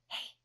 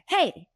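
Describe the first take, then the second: First: The word is whispered softly. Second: The word is yelled loudly.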